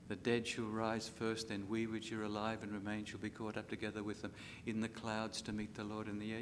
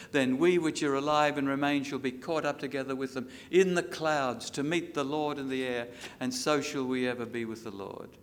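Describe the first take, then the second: First: Soft reflective reread. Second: Rings out loud over the congregation; loud scripture proclamation. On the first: Preacher rereads the verse gently to grieving listeners, soft. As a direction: let the promise sink in quietly. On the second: Preacher proclaiming the rapture verse to the church, loud. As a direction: declare it like a trumpet call. Loud reading, later reread quietly. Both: Acted.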